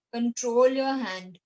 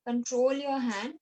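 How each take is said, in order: First: Louder, slow and firm, each word weighted; teacher telling kids to steady their hands, loud and slow; firm instruction. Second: Said in the usual way. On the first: Shown as a demonstration. Teacher drilling young students, firm and slow.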